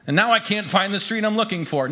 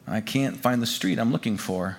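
First: Higher-pitched, lively storytelling; animated, lost. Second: Lower, subdued admission; dejected, lost. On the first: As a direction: tell it as a lost but still hopeful newcomer. Newcomer lost but still hopeful. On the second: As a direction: say it with the hope gone out of it. Narrator lost, near tears. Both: A narrator's reading.

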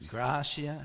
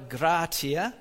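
First: "gratia" with a sh sound, GRAH-shee-ah; alternative Latin pronunciation. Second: "gratia" with a hard t, GRAH-tee-ah; alternative Latin pronunciation. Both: Shown as a demonstration. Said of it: "however you pronounce it".

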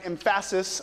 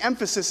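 First: "emphasis" said em-FASS-is, middle syllable stressed; misplaced syllable stress. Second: Said in the usual way. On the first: Shown as a demonstration. Joke stress on wrong syllable.

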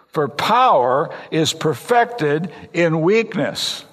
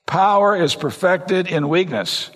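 First: Slow emphatic reading. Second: Slow emphatic repeat. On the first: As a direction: slowly lay out each word of "for power is perfected in weakness". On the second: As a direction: repeat "Power is perfected in weakness" slowly, leaning on "Power". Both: Shown as a demonstration. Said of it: "You get that?".

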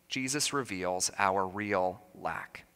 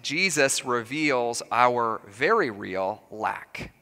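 First: Slower, much softer, "Jesus" leaned on; quiet, slow echo of the point; soft restatement. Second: Slow, measured, very leaned on; slow sermon point, "very" stressed. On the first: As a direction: drop to a hushed repeat, stressing "Jesus". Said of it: "restating the point more softly". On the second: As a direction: land hard on "very" in "Jesus reveals our very real lack". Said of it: "restating the point with emphasis". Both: Shown as a demonstration.

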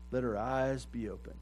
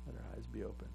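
First: Said in the usual way. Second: Much softer repeat of "Let our eyes be open"; a hushed echoed plea. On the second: Acted. Quieter echo of the plea.

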